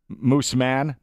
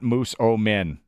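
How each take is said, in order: First: The name is said with two syllables. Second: The name is said with three syllables. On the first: The speaker calls it right. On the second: The speaker calls it wrong.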